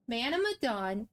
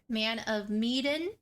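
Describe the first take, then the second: First: Medan said "muh-DAWN", stress on the second syllable; correct pronunciation. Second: Medan said "MEE-den", stress on the first syllable; mispronunciation. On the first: Shown as a demonstration. Host teaching viewers the game's name, Medan as "muh-DAWN". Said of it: "that is how it's pronounced". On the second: Retold or imitated. Host quoting how others say the game's name, Medan as "MEE-den". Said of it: "other words than Madan".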